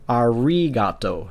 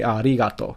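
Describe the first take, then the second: First: The R is a smooth English R sound. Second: The R is a quick tap, almost an L. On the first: The speaker calls it wrong. "you would not pronounce this as arigato" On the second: The speaker calls it right. "You would just say arigato. so it's almost like an L"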